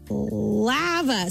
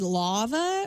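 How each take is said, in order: First: The first vowel is an open 'ah' sound. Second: The first vowel is a rounded 'aw' sound. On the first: This is how the place itself says its name. The speaker calls it right. "it is pronounced lava. So it's L-A-A-V-U-H" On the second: This is how the hosts had been saying the name. The speaker calls it wrong. "in our comment, we said lava. L-A-W"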